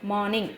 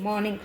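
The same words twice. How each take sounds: First: మార్నింగ్ with no R, "maa-ning"; silent R. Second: మార్నింగ్ with the R fully sounded, "mar-ning"; R pronounced. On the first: Teacher modelling the silent letter, మార్నింగ్ said without R. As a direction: drop the R in మార్నింగ్. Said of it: "ఆర్ silent పలుకుతుంది". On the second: Teacher showing children how not to say it, మార్నింగ్ with R sounded. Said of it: "మార్నింగ్ అనం కదా అండి". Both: Shown as a demonstration.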